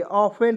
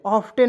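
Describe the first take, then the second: First: ऑफेन said with a silent t; correct pronunciation. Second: ऑफ्टन said with a clear t; wrong pronunciation. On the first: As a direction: drop the t and say ऑफेन. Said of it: "टी को इसमें silent रहेंगे". (ऑफेन, ट को silent रखकर) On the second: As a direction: sound the t in ऑफ्टन as the mistake. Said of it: "ऑफ्टन नहीं पढ़ेंगे". (ऑफ्टन में ट बोलकर, गलत उच्चारण) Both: Shown as a demonstration.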